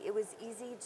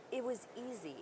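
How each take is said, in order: Both takes have the same delivery.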